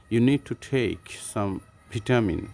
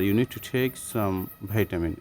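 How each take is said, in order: First: Vitamin said "vitt-amin" with short i; slow British vitamin sentence. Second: Vitamin said "vai-tamin" with ai; slow American vitamin sentence. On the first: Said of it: "এটা British". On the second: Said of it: "এটা হচ্ছে American". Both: Shown as a demonstration.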